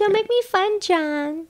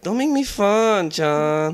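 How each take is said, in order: First: Higher, rising mock quote; uptalk. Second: Upward inflection, slow and louder; uptalk. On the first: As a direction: lift it up at the end. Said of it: "Yes, hey, a little more". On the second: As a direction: rise it up, drawn out. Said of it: "with an upward inflection". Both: Shown as a demonstration.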